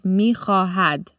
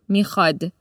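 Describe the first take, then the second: First: The middle h sound is pronounced clearly. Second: The middle h sound is dropped entirely. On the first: This is the written, formal form of the word. "In written Persian, it's mi-kha-had" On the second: This is the colloquial spoken form of the word. "Because the middle H sound has been dropped"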